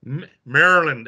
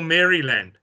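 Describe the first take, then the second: First: Maryland said the local way, squeezed to Merrland; local pronunciation. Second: Said in the usual way. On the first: Shown as a demonstration. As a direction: Maryland with the middle blurred to a quick uh. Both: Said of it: "as they say here".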